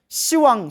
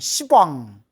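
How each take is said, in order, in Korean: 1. 첫 음절은 p 없이 부드러워요. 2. 첫 음절은 딱딱한 p 소리로 끝나요. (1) "발음을 부드럽게 시라고 표현하는 거예요" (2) "발음이 너무 세기 때문에 십왕, 욕 같잖아요"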